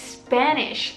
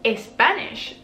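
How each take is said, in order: First: The word starts directly with the s sound. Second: An extra e vowel comes before the s. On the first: The speaker calls it right. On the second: The speaker calls it wrong.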